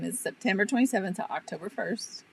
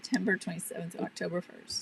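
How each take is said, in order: First: It is said louder. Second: It is said at normal volume.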